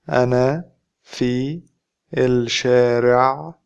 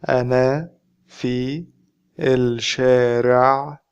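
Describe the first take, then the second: The two takes are said the same way.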